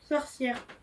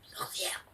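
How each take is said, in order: First: It is said shyly. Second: It is said as if sick, with coughing.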